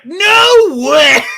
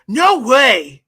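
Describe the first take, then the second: First: It is said imitating Sonic the Hedgehog. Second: It is said in a plain, normal voice.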